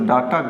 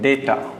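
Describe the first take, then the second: First: The first vowel sounds like 'dah'. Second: The first vowel sounds like 'day'. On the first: The speaker calls it wrong. "डाटा गलत उच्चारण होता है" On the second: The speaker calls it right. "डेटा correct उच्चारण होता है"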